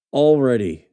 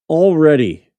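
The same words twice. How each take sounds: First: Said in the usual way. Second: Loud, higher "Already," with a falling tune; exclaimed. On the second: Real, not acted. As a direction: blurt "Already" out in disbelief.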